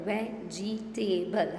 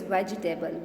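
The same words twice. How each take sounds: First: "Vegetable" slowly as ve, ge, ta, ble; teacher drawing out each syllable of "Vegetable"; split into syllables. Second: Said in the usual way. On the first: Shown as a demonstration. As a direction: say "Vegetable" in four separate beats. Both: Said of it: "How many syllables?".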